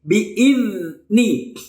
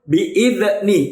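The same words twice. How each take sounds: First: The z sound is smooth, without a bounce. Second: The z sound is released with a bounce. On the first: The speaker calls it right. "dikeluarkan ujung lidahnya" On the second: The speaker calls it wrong. "dipantulkan seperti ini ... itu tidak boleh"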